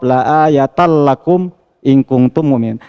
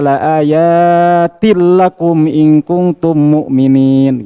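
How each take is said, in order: First: The vowel in 'ayat' is short, ending in -al. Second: The vowel in 'ayat' is long, ending in -il. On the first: The word is read as a singular. "itu ya-nya pendek" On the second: The word is read as a plural. "Kalau ya-nya dibaca pendek eh dibaca panjang"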